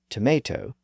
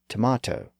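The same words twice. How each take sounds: First: The middle vowel sounds like 'ay'. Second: The middle vowel sounds like 'ah'. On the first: This form went through the vowel shift. "some speakers converted tomate into tomato" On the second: This form kept the original vowel. "other speakers retained the original vowel sound as tomato"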